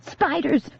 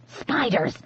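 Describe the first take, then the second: First: High alarmed shout; sharp high cry; shouted warning. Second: Softer, steadier spiders; quiet insistent word; said again quietly. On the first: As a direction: yell it to scare her. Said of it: "Grace shouted again". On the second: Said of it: "Grace said again". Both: A narrator's reading.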